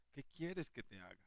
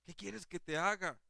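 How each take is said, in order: First: Much softer, gentle question; Jesus tenderly asking the blind man what he wants. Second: Higher, set apart from the preacher's own voice; a gentle Jesus asking kindly; preacher voicing Jesus asking Bartimeo. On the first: Acted. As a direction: ask it with tenderness, almost hushed. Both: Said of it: "más de ternura".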